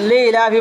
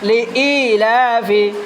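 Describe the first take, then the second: First: The 'i' after 'li' merges into one sound. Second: The 'i' after 'li' is said clearly apart. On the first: The speaker calls it wrong. "লিলাফি বলবে না" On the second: The speaker calls it right. "ই স্পষ্ট করে বলতে হবে"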